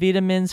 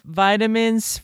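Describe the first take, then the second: First: It is said with a British pronunciation. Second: It is said with an American pronunciation. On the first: "vitamins for the Brits" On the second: "For the Americans"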